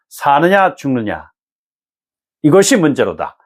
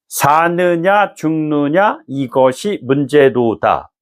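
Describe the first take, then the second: First: The line is read with long dramatic pauses. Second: The line is read straight through without pauses. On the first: The speaker calls it right. "뭐 이렇게 얘기한다는 것이죠" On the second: The speaker calls it wrong. "이렇게 읽지 않는다는 거예요"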